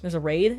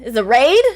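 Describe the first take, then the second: First: Said in the usual way. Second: Loud, high rising question; surprised. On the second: Real, not acted. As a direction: burst out in rising disbelief. Realises a raid, asks louder.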